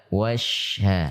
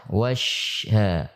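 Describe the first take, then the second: The two takes are said the same way.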